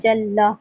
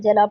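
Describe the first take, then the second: First: The L sound is doubled and held long. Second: The L sound is single and short. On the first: The speaker calls it right. "जैसे लिखा हुआ है जल्ला" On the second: The speaker calls it wrong. "इसको खाली जला पढ़ दिया"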